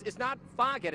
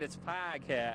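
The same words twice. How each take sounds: First: [name] said as "Fahgat" in Boston accent; Boston-style [name], broad flat a. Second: [name] said as "Fog-hat" with a clear h, lower and softer; corrected pronunciation. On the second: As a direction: [name] with the h sounded out. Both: Shown as a demonstration. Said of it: "making fun of my Boston accent".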